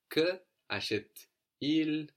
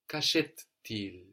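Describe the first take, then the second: First: Que and achète stay apart, with no linking t. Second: Que and achète merge, with a linking t. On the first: "without contractions and liaisons" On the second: "que and achète, acheter will contract"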